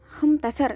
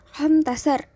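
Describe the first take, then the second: First: The number is said with sounds dropped. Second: The same.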